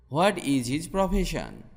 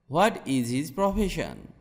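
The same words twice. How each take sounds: The two takes are said the same way.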